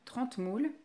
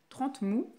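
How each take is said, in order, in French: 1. Le nom se termine par un l prononcé. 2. Le nom se termine sans aucun son l.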